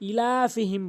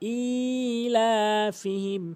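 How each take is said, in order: First: The first vowel is said short. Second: The first vowel is drawn out long. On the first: The speaker calls it wrong. "দ্বিতীয় নাম্বার ভুল অধিকাংশ লোক যেটি করে সেটি হচ্ছে ইলাফিহিম বলে" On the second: The speaker calls it right. "এখানে হামজা একালিফ টেনে উচ্চারণ করতে হবে"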